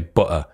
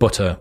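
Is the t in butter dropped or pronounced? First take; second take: dropped; pronounced. First: The t sound in the middle is dropped. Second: The t sound in the middle is pronounced. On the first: "we drop our T's a lot. ... we would say butter. And it's just a lazy way of talking" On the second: "instead of butter"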